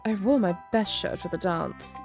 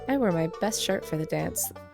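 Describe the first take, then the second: First: It is said in a put-on English accent. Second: It is said in the speaker's own accent.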